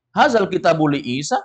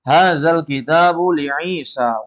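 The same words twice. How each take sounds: First: "Hazal kitabu li Isa" rising on "Isa"; questioning intonation. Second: "Hazal kitabu li Isa" slow, falling on "Isa"; telling intonation. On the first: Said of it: "itu nanya namanya itu". ("li Isa" naik seperti bertanya) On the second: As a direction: state "Hazal kitabu li Isa" in long measured syllables. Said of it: "ini ngasih tahu". ("li Isa" turun, memberi tahu) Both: Shown as a demonstration.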